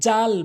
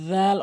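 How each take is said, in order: First: The word starts with a plain j sound. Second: The word starts with a voiced th-like sound. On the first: The speaker calls it wrong. "ভুল উচ্চারণ" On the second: The speaker calls it right. "জিহ্বার আগা সামনে দুটি দাঁতের আগাতে লাগিয়ে"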